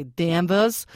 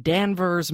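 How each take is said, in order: First: Danvers in a Massachusetts accent, final r dropped; slow Massachusetts-accented Danvers, said as Danvuhs. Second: Said in the usual way. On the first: Shown as a demonstration. Host tries the listener's hometown name, Massachusetts accent. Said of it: "How was my Massachusetts accent?". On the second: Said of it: "or should I say Danvers?".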